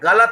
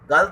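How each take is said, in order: First: The middle vowel is kept. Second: The middle vowel is dropped. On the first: The speaker calls it right. "गलत होता है" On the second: The speaker calls it wrong. "स्वर सहित उच्चारण को भी स्वर रहित कर देते हैं"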